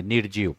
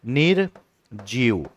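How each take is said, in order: First: निर्जीव said softly, र read right before ज; teacher sounding out निर्जीव; careful reading. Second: Slow demo. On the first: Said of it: "लेकिन जब इसको पढ़ेंगे तो यहीं पढ़ेंगे". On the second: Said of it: "अब इसी को आप ऐसे भी लिख सकते हो". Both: Shown as a demonstration.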